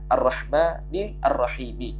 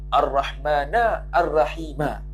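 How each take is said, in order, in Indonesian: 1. Kedua kata berakhir dengan vokal i. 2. Kedua kata berakhir dengan vokal a. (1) "Baca kedua-duanya dengan jar" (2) "Dan boleh juga baca kedua-duanya dengan nasab"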